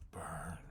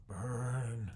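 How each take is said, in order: First: A hushed crazed whisper; whispered burn, fixated on the flames. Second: Louder and higher, a manic call; loud burn, the madman cheering the fire; crazed cry. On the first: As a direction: breathe the word out, obsessed. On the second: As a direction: let it burst out, unhinged. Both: Acted. Crazed character staring at fire.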